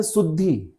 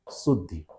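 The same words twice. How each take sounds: First: शुद्धि with a long final ई; common mispronunciation. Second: शुद्धि with a short final इ; correct short vowel. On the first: Teacher showing what people say, mispronunciation demo. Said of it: "बोलते हैं". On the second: Teacher asking what you would write, correct pronunciation demo. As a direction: keep the last i of शुद्धि brief. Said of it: "तो आप इसको क्या लिखेंगे?". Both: Shown as a demonstration.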